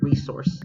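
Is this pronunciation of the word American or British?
American. It is said with an American pronunciation. The speaker calls it right. "We speak speak with American English here"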